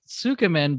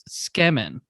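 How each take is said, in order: First: The u vowel after the first consonant is sounded. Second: The u vowel after the first consonant is dropped. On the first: The speaker calls it wrong. "a lot of people pronounce it Sukemen" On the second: The speaker calls it right. "it's actually pronounced Skemen"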